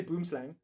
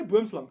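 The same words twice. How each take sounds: First: "boomslang" said the English way, last syllable rhyming with "hang"; English pronunciation. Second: "boomslang" said the Afrikaans way, last vowel like "slung"; Afrikaans pronunciation. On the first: Streamer rejecting the English way, "boomslang" pronounced with English "slang". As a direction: say "boomslang" with an anglicised "slang" at the end. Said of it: "I'm not fucking English".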